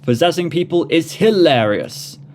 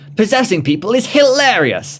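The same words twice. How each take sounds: First: It is read in the speaker's normal voice. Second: It is read in a put-on character voice.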